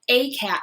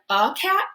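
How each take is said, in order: First: The article is a full 'ay' sound. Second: The article is a weak 'uh' sound. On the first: "the a sound" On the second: "the uh sound"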